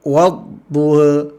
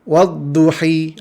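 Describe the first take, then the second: First: The final vowel leans only slightly toward e. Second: The final vowel is a full i sound. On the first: "Bacaan taklil" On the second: "Bacaan kasrahnya wadduhi, ha, itu tidak ada dalam Al-Quran"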